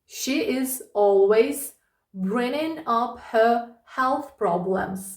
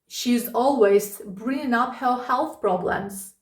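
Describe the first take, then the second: First: The sentence is spoken at a slow, careful pace. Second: The sentence is spoken at a normal, quick pace.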